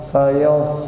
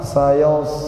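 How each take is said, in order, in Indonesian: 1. Vokalnya ditarik ke belakang, rahang membulat. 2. Vokalnya ditarik ke belakang, rahang membulat.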